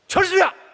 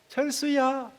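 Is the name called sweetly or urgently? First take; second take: urgently; sweetly. First: The name is shouted sharply and urgently. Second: The name is called softly and sweetly. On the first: Real love acts firmly to stop the danger. The speaker calls it right. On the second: Affection is shown without real concern for danger. The speaker calls it wrong.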